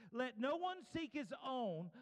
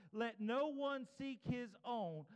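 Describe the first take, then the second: Both takes have the same delivery.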